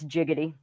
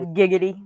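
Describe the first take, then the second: First: The word begins with a J sound. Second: The word begins with a hard G sound. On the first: "With the J, it's jiggity" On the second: "with the G, it's giggity"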